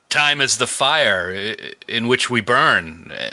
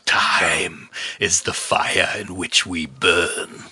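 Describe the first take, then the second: First: It is said plainly, without performance. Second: It is said dramatically, like a performance.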